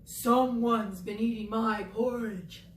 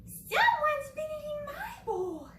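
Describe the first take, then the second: First: A hint of a gruff Papa Bear, slow; slow Papa Bear voice, lightly done; lightly voiced Papa Bear. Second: Much higher, slow Mama Bear voice; high-pitched Mama Bear. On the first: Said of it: "he said". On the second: Acted. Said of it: "She said".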